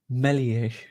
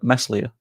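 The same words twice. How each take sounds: First: The S sound in the name is silent. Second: The S sound in the name is pronounced. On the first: The speaker calls it right. "There we go" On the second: The speaker calls it wrong. "everyone was like Meslier. ... Stop, stop pronouncing the S"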